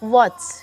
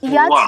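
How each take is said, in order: First: The word begins with a w sound. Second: The word begins with a y sound. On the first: The speaker calls it right. "ও বলতে হবে" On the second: The speaker calls it wrong. "আপনি কি ইয়াচ বলেন?"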